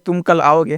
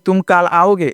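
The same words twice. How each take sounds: First: The vowel in kal is short. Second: The vowel in kal is long, like kaal. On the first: The speaker calls it right. "तो क्या बोलते हैं" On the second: The speaker calls it wrong. "ये नहीं बोलते हैं"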